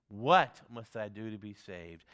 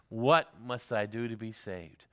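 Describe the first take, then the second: First: "What must I do to be saved?" said slowly, leaning on "What"; a slow, weighty "What must I do to be saved?"; slow emphatic repeat. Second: Said in the usual way. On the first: Retold or imitated. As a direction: drag it out slowly and press each word. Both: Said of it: "he repeated it several times for emphasis".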